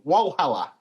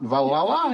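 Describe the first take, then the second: First: The word begins with a W sound. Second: The word begins with a V sound. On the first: This is how the name of a local town is said in Australia. "That's how Australians pronounce it" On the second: This is how the name is said in German. "which you pronounce with a V a lot"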